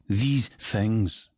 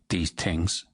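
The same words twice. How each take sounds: First: It is said with a Scottish accent. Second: It is said with an Irish accent.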